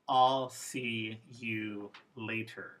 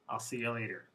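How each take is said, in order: First: The word you is said fully and clearly. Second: The word you is reduced to a schwa. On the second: "Informal. A schwa appeared in the you"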